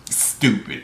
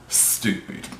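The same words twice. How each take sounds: First: Said in the usual way. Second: Breathy unvoiced whisper of Stupid. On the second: Real, not acted. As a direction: whisper Stupid under your breath in disgust. Disgusted repeat of stupid.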